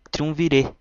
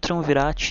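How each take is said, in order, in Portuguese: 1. O nome termina com a vogal aberta 'eh'. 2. O nome termina com a palavra 'rat'. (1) "Na verdade, se pronuncia Triunvirê" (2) "a banda é conhecida como Triunvirate"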